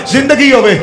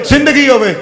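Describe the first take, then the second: No difference in how they are said.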